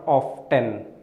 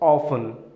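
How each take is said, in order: First: The T sound is pronounced. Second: The T sound is silent. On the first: The speaker calls it wrong. "not often" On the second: The speaker calls it right. "letter T is silent, so you pronounce it as often"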